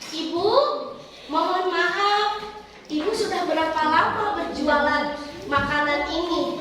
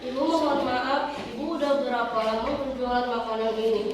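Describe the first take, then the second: First: Every word is articulated clearly and distinctly. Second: The words are slurred and articulated unclearly. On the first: The speaker calls it right. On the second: The speaker calls it wrong.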